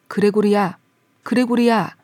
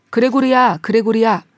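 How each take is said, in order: First: Father's insistent call, held in; lower-toned call. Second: Louder, raised-voice call of a name; father calling out. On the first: Father pressing his son for an answer, lower-toned call. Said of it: "다시 한번 보다 낮은 음으로". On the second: Father at the side door calling his son, calling out. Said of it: "아버지가 소리쳤다". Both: A narrator's reading.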